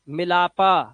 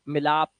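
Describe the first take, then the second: First: The word ends with an added 'a' vowel. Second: The word ends on the closed 'p' sound. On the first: The speaker calls it wrong. "मिलापा ऐसे नहीं बोलते" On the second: The speaker calls it right. "आप बोलते हो मिलाप"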